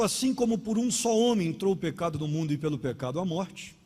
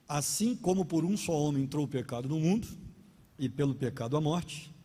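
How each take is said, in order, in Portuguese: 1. É lida direto, sem pausar. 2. É lida com pausas nas vírgulas.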